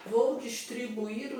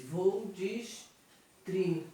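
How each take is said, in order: First: Said in the usual way. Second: "distribuir" slowly broken into dis-tri-bu-ir; sílaba por sílaba. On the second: Shown as a demonstration. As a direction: draw out each syllable of "distribuir", pausing between them. ("distribuir" devagar, separando cada sílaba) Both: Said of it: "separando a sílaba".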